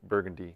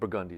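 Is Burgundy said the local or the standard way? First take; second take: standard; local. First: Burgundy is said in the usual standard way. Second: Burgundy is said in a different local way. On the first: "There's a street named Burgundy" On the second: "which is actually pronounced Burgundy"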